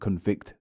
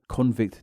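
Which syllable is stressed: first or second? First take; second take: second; first. First: The stress is on the second syllable. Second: The stress is on the first syllable. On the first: It is used as a verb. "convict the verb" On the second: It is used as a noun. "convict the noun"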